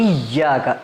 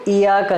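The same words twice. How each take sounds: First: The y sound is held and doubled. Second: The y sound is short and single. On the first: The speaker calls it right. "असल में यहाँ पे तशदीद होती है" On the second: The speaker calls it wrong. "इसको इय्याका नहीं पढ़ना"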